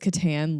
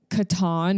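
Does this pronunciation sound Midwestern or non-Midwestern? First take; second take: Midwestern; non-Midwestern. First: It is said with a Midwestern-sounding pronunciation. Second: It is said without a Midwestern-sounding pronunciation. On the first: "literally sounds like you're from Wisconsin" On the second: "is what I say"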